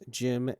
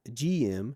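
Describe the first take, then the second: First: It is said as one word, Jim. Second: It is said as two letters, G M. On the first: The speaker calls it right. "the pronunciation of the Jim's name as Jim" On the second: The speaker calls it wrong. "and not G- GM"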